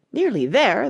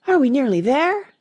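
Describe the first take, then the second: First: Slightly raised echo of another's question. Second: Higher, louder pleading question with a rise; panted question. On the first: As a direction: repeat it back as a query. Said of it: "the Queen repeated". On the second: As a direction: ask it high, a touch out of breath. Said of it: "Alice managed to pant out". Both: A narrator's reading.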